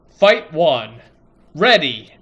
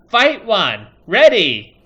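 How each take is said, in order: First: It is said in a normal adult announcer voice. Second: It is said in a high chipmunk-like kid voice.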